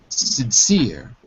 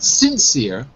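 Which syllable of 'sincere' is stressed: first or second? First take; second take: second; first. First: The stress is on the second syllable. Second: The stress is on the first syllable. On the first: The speaker calls it right. "we put the stress on the second syllable" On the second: The speaker calls it wrong. "Not sincere"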